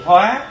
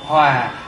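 First: The word has a high rising tone. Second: The word has a low falling tone. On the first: It means to transform. "Bỏ dấu sắc thì hóa" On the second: It means to be in harmony. "bỏ dấu huyền thì hòa"

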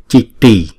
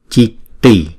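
Both takes have the same delivery.

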